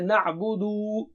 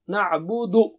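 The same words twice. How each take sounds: First: The final vowel is drawn out long. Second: The final vowel is cut off short. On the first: The speaker calls it wrong. "don't stretch at the end. Don't say na'budu" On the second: The speaker calls it right. "No, na'budu. Stop there"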